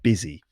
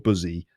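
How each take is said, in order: First: The first vowel sounds like the i in 'biz'. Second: The first vowel sounds like the u in 'bus'. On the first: The speaker calls it right. "but busy" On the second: The speaker calls it wrong. "not buzzy or buzzy"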